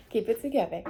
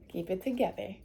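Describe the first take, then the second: First: Said in the usual way. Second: Softer, telling herself to hold it in; murmured to herself to stay calm; quiet self-talk. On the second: Real, not acted.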